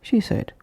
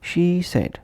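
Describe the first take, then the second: First: SHE SAID run together as one word; linked words. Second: SHE held full, apart from SAID; separate words. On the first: Teacher showing learners word connection, linked words. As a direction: glide from "she" straight into "said". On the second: Teacher showing learners word connection, separate words. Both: Shown as a demonstration. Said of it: "would become".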